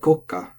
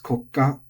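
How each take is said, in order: First: The pitch is high on the first syllable, then drops. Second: The pitch stays flat with no drop. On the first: "have a tendency to be mispronounced" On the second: "the accent is lost"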